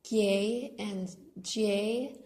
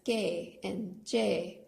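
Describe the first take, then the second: First: Each word has a Y sound after the consonant. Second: Each word has no Y sound after the consonant. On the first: This is how the words are spelled. "are written as" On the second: This is how people say them at normal speed. "without the Y sound"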